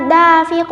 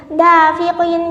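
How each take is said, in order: First: "dafiq" stopped with a bouncing final q; echoed q closing "dafiq"; qalqalah kubra. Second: Said in the usual way. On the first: Shown as a demonstration. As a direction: cut the ending of "dafiq" and rebound the q. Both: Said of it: "bila waqaf dibaca dafiq".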